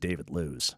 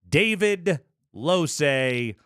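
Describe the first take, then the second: First: The surname is said as one syllable, lose. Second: The surname is said as two syllables, lo-say. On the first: This is how someone reading the spelling would say it. "you're reading that going, this dude's name is" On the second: This is how the name is actually pronounced. "One more time for the pronunciation. L O S E, Losay"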